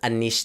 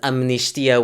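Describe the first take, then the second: First: It is said the Brazilian way, without m. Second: It is said the European Portuguese way, with m.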